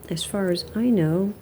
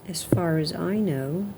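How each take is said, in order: No difference in how they are said.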